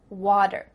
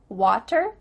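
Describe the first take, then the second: First: The middle consonant is a soft D sound. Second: The middle consonant is a crisp T sound. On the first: The speaker calls it right. "a T that's between two vowel sounds... is going to change to a D" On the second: The speaker calls it wrong. "do you hear better, water? No"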